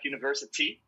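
The T is clearly pronounced, British style.

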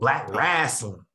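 Wrestling is said in a Southern way. The speaker calls it right. "That's how people in the South pronounce it"

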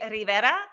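The name is said with a Spanish pronunciation.

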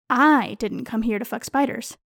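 The word "I" carries the strongest stress. Someone else, not me, came for that. "I am accusing someone else of being present solely to fuck spiders"

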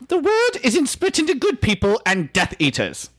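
It is said in an imitation of Slughorn.

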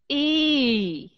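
The pitch falls through the vowel. "Đi xuống là như thế này"

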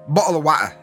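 It is said in a Sheffield Yorkshire accent.

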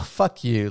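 It is said in a light, playful tone. It is friendly teasing between friends. "they understand it as like, oh my God, you're so silly kind of way"

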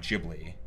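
The name is said with an English pronunciation. "when they do like talks in English, they say Ghibli"

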